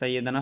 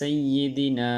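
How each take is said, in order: First: The vowel after 'd' is an 'a' sound. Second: The vowel after 'd' is an 'i' sound. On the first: The speaker calls it wrong. "অনেকে দুরূদে পড়ার সময় আলা সাইয়্যিদানা বলে" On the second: The speaker calls it right. "আসলে সাইয়্যিদানা হবে সাইয়্যিদিনা"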